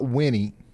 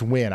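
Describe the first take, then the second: First: The name is said with two syllables. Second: The name is said with one syllable. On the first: The speaker calls it wrong. "It's not Winnie" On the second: The speaker calls it right. "It's Win"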